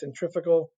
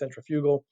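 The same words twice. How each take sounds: First: The word is said in the speaker's usual way. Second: The word is said the way England says it.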